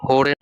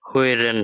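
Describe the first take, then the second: First: The first vowel is a plain o sound. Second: The first vowel is a rounded ö sound. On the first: The speaker calls it wrong. "হোরেন না হয়ে" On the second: The speaker calls it right. "হইরেন হয়েছে"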